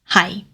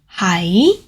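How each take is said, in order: First: The syllable has a low, level tone. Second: The syllable has a mid-rising tone. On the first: It means 'to be'. "a low, flat tone, low level tone" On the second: It marks someone's location. "is a rising tone. It's the mid-rising tone"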